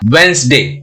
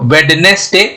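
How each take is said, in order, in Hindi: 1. n से पहले कोई d की आवाज़ सुनाई नहीं देती। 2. n से पहले d की आवाज़ सुनाई देती है। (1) "क्या हो जाएगा" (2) "नहीं बोलेंगे"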